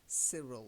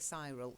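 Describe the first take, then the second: First: The first vowel sounds like short 'ih'. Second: The first vowel sounds like 'eye'. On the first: The speaker calls it right. "It's Cyril" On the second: The speaker calls it wrong. "I know it's a Y, but we don't say Cyril"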